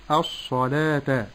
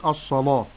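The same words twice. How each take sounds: First: "الصلاة" with heavy sad and thin l; correct light lam. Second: "الصلاة" with a dark, heavy l; over-thicken the "laa" in "الصلاة"; wrong thickened lam. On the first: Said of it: "ولكن أقول". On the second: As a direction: demonstrate faulty emphatic lam in "الصلاة". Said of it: "ولا أغلظ اللام". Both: Shown as a demonstration.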